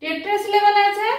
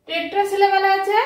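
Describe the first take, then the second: No difference in how they are said.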